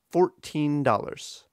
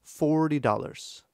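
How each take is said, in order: First: Put-on "fourteen" as two even beats, FOUR-TEEN; straight, slightly overdone march on "fourteen dollars"; exaggerated equal stress. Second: "forty" with long FOR, tiny "-ty"; slightly overdone FOOR-ty before "dollars"; exaggerated first-syllable stress. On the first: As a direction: give "teen" in "fourteen dollars" full length. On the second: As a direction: swing "forty dollars", strong-weak. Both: Shown as a demonstration. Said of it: "I'm exaggerating it a bit".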